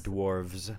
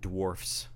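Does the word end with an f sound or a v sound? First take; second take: v sound; f sound. First: The word ends with a v sound. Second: The word ends with an f sound. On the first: The speaker calls it wrong. "Not dwarves" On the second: The speaker calls it right. "It's with an F"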